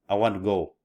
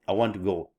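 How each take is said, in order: The two takes are said the same way.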